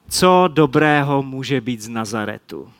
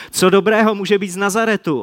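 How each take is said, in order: First: Nižším hlasem, pochybovačně; skepticky a cynicky. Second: Said in the usual way. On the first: Acted. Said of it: "Tahle skeptická, cynická Natanaelova odpověď". (Natanael skepticky odpovídá Filipovi, nižší cynický tón) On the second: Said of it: "já budu číst dál".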